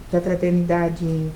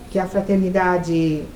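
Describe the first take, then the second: No difference in how they are said.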